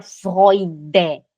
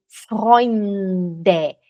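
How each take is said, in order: First: Freude, with no N before "de"; missing N. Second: Freunde very slow, with a long held N; sounded N. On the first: Teacher showing what not to say, Freude without N. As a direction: say Freude going straight from the vowel to D. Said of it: "não pode falar Freude". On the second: Teacher modelling the correct word, Freunde with held N. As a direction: stretch the N in Freunde before "de". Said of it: "Você tem que falar o N". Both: Shown as a demonstration.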